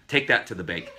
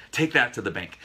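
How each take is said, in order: First: Said in the usual way. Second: A hint of a TV tough guy, higher and louder; light nod to an old TV detective's catchphrase; Robert Blake catchphrase. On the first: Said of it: "Who used to say that?". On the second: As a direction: punch it out like a cop show line. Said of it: "Robert Blake, I think, uh, from, uh, Beretta".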